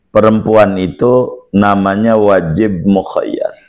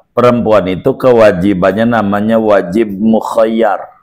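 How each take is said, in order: First: Slow it right down for emphasis; slow and deliberate. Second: Said in the usual way. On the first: Shown as a demonstration. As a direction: spell out the rule slowly, word by word.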